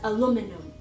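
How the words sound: It is said with the American pronunciation. "as aluminum"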